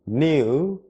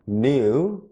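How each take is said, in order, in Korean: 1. 영국식 발음이에요. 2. 영국식 발음이에요.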